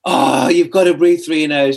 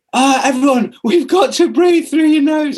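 First: Eager enthusiast. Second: High, slow, hammed-up evangelist voice; annoying preachy enthusiast. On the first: Retold or imitated. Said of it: "saying to my wife's, um, mum". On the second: A breathing convert lecturing everyone, high, slow and preachy. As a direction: preach nose breathing to everyone like a know-it-all. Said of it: "I became this really annoying person that was like".

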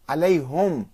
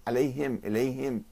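First: عليهم said ʕalayhum, the ha with u; عليهم with damma. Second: عليهم and إليهم ending him, softer; kasra on ha. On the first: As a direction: round the ha in عليهم to hum. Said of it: "بضم الهاء". (عليهم بضم الهاء) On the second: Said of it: "بكسر الهاء". (عليهم وإليهم بكسر الهاء) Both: Shown as a demonstration.

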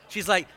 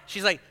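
No difference in how they are said.

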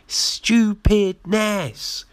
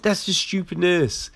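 First: Higher, very slow Stupidness with the syllables stretched; scornful slow Stupidness; drawn-out scorn. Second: Said in the usual way. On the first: Shown as a demonstration. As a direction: drag Stupidness out in disbelief.

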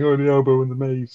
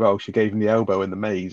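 First: Retold line said through a light chuckle; mock laughing quote. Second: Said in the usual way. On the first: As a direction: imitate him laughing as he repeats it. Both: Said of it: "and he starts laughing".

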